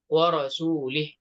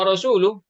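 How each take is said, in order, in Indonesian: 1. Kata "wa rasuluh" diakhiri vokal i. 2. Kata "wa rasuluh" diakhiri vokal u. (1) "dia membaca wa rasulih" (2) "harusnya wa rasuluh"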